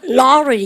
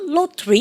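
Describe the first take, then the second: First: The middle t is flapped, sounding like d. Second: The middle t is pronounced as a clear t. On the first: "미국 애들은 어떻게 합니까? 라로리 이렇게 얘기하는 거 좋아하고요" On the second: "영국 애들은 연음하는 거 싫어하거든요. 로터리 이렇게 얘기합니다"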